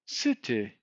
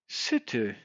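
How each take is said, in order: The two takes are said the same way.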